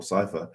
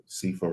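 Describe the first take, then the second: First: Cypher said SIGH-fer; sigh-fer variant. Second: Cipher said SEE-fer; see-fer variant. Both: Shown as a demonstration. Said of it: "people say Cypher or Cipher".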